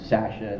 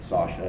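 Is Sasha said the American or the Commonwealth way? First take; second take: Commonwealth; American. First: The name is said with the Commonwealth vowel. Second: The name is said with the American vowel. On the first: "In like Commonwealth countries, they say" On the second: "and here it's uh"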